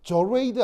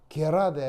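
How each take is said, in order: First: It is read like English, starting with a 'j' sound. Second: It is read as German, starting with a hard 'g'. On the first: The speaker calls it wrong. "저레이드 아니에요. 저거 영어 아니고 독일어입니다" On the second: The speaker calls it right. "딱딱하게 그대로 발음해요"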